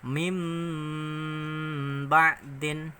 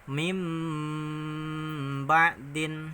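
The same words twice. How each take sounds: First: The first word ends with an m sound. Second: The first word ends with an m sound.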